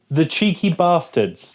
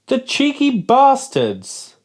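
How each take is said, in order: First: Said in the usual way. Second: High, slow indignant outburst; real outrage at the label; outraged. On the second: Real, not acted. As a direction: spit it out in disbelief. Outraged at sugar claim.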